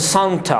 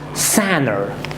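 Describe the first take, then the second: First: The T is clearly released and pronounced. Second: The T is held silent, not released. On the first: The speaker calls it wrong. "do not say" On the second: The speaker calls it right. "do not release the T sound"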